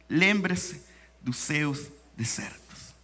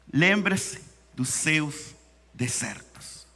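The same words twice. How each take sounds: The two takes are said the same way.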